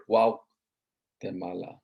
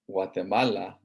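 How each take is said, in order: First: Guatemala stretched slowly syllable by syllable; teacher lingering on Guatemala; slow, drawn out. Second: Said in the usual way. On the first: Shown as a demonstration. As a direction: draw Guatemala out to show its Nahuatl roots. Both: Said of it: "is actually a Nahuatl word".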